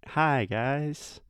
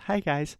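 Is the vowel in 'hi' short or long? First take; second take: long; short. First: The vowel in hi is drawn out longer. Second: The vowel in hi is short.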